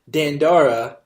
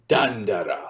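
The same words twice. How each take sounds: First: The name is said with an American-style pronunciation. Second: The name is said with a Japanese-style pronunciation. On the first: "more typical American pronunciation" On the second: "like it would be in Jap- Japanese"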